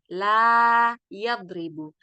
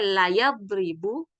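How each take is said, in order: First: The vowel in 'la' is held long. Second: The vowel in 'la' is cut short. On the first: It means not or do not. "La, la panjang" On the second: It means surely. "Kalau la yang tidak ada panjangnya"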